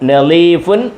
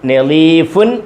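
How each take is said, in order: The two takes are said the same way.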